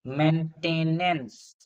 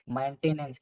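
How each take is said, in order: First: "maintenance" stretched very slowly, syllable by syllable; slowly spelled out. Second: Said in the usual way. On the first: Shown as a demonstration. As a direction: draw out "maintenance" to check its spelling. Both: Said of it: "maintenance नहीं होते".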